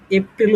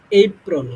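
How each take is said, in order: First: এপ্রিল as "e-pril", with an i; familiar Bengali pronunciation. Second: এপ্রিল as "ei-prol", firm first syllable; corrected pronunciation. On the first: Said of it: "উচ্চারণ করতাম". (এপ্রিল প্রচলিত উচ্চারণে, "প্রিল" সহ) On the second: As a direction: glide ei at the start of এপ্রিল, end "-prol". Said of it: "এটা উচ্চারণ হবে তোমার হচ্ছে". (এপ্রিল জোর দিয়ে, "এইপ্রল") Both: Shown as a demonstration.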